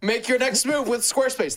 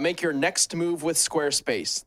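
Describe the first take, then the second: First: It is said at a louder volume. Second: It is said at a quieter volume. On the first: "The bigger text makes me feel like I gotta say it louder" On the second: "I messed up the read because it was so small"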